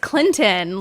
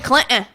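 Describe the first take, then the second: First: The middle T sound is clearly pronounced. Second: The middle T sound is dropped. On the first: The speaker calls it right. "there's a T in there" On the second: The speaker calls it wrong. "Stop rolling it like Clinton"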